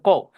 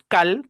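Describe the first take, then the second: First: The vowel is an English-style vowel, not Spanish a. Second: The vowel is a Spanish-style open a. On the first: The speaker calls it right. "se pronuncia call" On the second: The speaker calls it wrong. "En el peor de los casos decimos cal"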